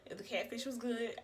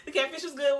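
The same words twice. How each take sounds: First: Said in the usual way. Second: Laughing. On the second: Real, not acted. Repeats line laughing.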